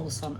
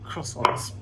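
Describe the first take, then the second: First: The word is said with a French pronunciation. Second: The word is said with an English pronunciation. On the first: The speaker calls it right. "I have to pronounce them properly" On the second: The speaker calls it wrong. "as I always used to call them"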